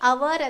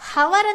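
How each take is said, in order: First: The word begins directly with a vowel sound. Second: The word begins with an audible h sound. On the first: The speaker calls it right. "ಅವರ್ ಅಂತ ಉಚ್ಚಾರ ಮಾಡ್ತೀವಿ" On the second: The speaker calls it wrong. "ಹವರ್ ಅಂತ ಹೇಳಲ್ಲ"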